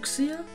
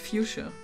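First: The word is pronounced with a German-style reading. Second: The word is pronounced with the usual English reading. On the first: "That's how I would read it because I'm German" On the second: "I think it's pronounced fuchsia"

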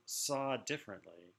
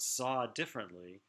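First: The phrase is said plainly without extra emphasis. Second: The phrase is said with strong added emphasis.

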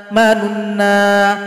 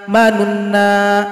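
No difference in how they are said.

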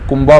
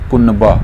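First: The n is only a nasal colouring of the vowel. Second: The n is pronounced as a full, clear consonant. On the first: The speaker calls it wrong. "आम तौर पर कुनबा बोला जाता है जो दुरुस्त नहीं है" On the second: The speaker calls it right. "जो नून है ये वाज़े किया जाएगा"

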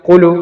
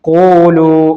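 First: The vowel is not lengthened at all. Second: The vowel is held for two counts. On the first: The speaker calls it wrong. "നീട്ടാതെ" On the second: The speaker calls it right. "അത്ര മാത്രം നീട്ടിയാൽ മതി"

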